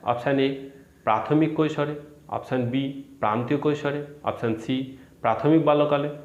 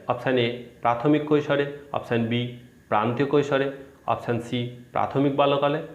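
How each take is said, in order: The two takes are said the same way.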